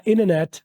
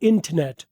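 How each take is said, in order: First: इंटरनेट said as innernet, t dropped; American, t silent; American English way; American pronunciation. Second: इंटरनेट with a clear t, internet; British, t sounded; British English way; British pronunciation. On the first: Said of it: "American वाले बोलते हैं". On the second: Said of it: "British वाले बोलते हैं". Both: Shown as a demonstration.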